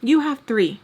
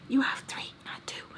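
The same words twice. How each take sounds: First: Said in the usual way. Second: Hushed, whispered aside; whispered correction. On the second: Real, not acted. Correcting her about how many kids she has, whispered correction. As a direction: drop to a pointed whisper.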